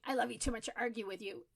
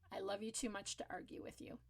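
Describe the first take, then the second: First: Hurried and frustrated, fast; a frustrated parent rushing it. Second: Soft and calm, quiet at the end; the calm in the storm. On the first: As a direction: rattle it off, fed up. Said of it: "if you're feeling really frustrated and overwhelmed". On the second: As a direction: say it gently, no fight in it. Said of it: "you gotta say it in a calm voice". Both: Shown as a demonstration.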